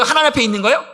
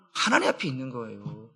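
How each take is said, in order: First: 하나님 앞에 있는 거예요? asked with a lifted, questioning end; rising question. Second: 하나님 앞에 있는 거예요 answered much lower and softer, falling; quiet answer. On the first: Pastor quizzing the congregation, rising tune at the end. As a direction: pose it as a question to the room. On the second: Pastor answering his own question quietly and firmly. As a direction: settle it with a soft, low affirmation. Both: Shown as a demonstration.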